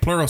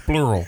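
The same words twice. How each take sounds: First: The word is said plainly, without rounding. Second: The word is said with strongly rounded lips. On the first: The speaker calls it wrong. "Instead of saying plural" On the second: The speaker calls it right. "look at my lips. ... It's more sophisticated"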